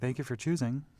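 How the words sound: The phrase is said in a sweet tone.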